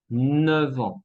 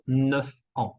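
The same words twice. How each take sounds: First: Neuf ans linked with a v; F becomes V. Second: Neuf ans with f and a break; wrong F. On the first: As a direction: slowly say "Neuf ans" as neu-van. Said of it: "La F se cambia en V". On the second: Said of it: "y no neuf ans". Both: Shown as a demonstration.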